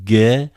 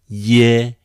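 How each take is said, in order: First: It begins with a hard g sound. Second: It begins with a y sound. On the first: "You may expect like the first one, ge and gi. I still prefer to pronounce that way" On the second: "some people pronounce like y, yet in English"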